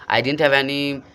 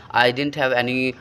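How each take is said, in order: Both takes have the same delivery.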